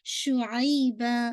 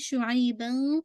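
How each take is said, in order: First: The word ends on a long vowel. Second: The word ends with an n sound. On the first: The reciter stops at this word. "मैंने यहाँ पे रोका था" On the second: The reciter continues without stopping. "आप चाहें तो कंटिन्यू भी कर सकते हैं"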